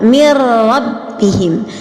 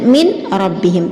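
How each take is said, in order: First: The n merges fully into a doubled r. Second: The n is pronounced clearly before the r. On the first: The speaker calls it right. "Dia dibaca secara idgham akan tetapi tanpa mendengung" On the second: The speaker calls it wrong. "tidak dibaca dengan min rabbihim, tidak dibaca secara idhar"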